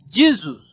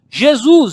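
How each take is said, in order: First: The name is pronounced the English way. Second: The name is pronounced the Portuguese way. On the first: "pela forma de pronúncia dos ingleses, eles pronunciam Jesus" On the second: "Jesus em português"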